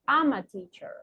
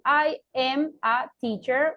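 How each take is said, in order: First: The m sound runs into the following vowel. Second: Each word is said separately, not linked. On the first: "linking the M sound with the vowel" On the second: "Instead of saying"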